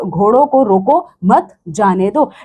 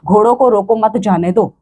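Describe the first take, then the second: First: There is a pause after 'mat'. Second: It is said without any pause.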